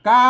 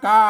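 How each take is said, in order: No difference in how they are said.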